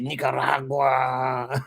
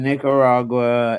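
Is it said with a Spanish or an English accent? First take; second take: Spanish; English. First: It is said with a Spanish accent. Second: It is said with an English accent.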